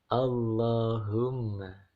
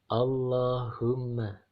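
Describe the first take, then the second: Both takes have the same delivery.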